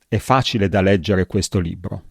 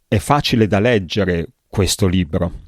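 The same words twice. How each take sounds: First: It runs on without any pause. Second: A short pause comes before 'questo libro'. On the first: It is one single plain sentence. The speaker calls it wrong. "come frase piana, frase piatta, questa frase non è possibile" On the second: The last words are added as an afterthought. The speaker calls it right. "dovrei aggiungere una piccola pausa"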